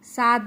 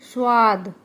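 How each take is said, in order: First: The vowel after s is a plain open a. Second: The vowel after s is rounded. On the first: The speaker calls it wrong. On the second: The speaker calls it right.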